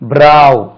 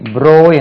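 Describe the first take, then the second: First: The vowel sounds like 'ow' in 'cow'. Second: The vowel sounds like 'oh' in 'go'. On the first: The speaker calls it right. "ப்ரோ இல்லை, இது பிராவ்" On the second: The speaker calls it wrong. "ப்ரோ என்று தவறா உச்சரிக்கும்"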